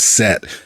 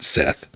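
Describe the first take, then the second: First: The name ends with a plain t sound. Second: The name ends with a th sound. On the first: The speaker calls it right. "I'm pretty sure is Set and not Seth" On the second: The speaker calls it wrong. "I say you know Seth out of just like not thinking about it"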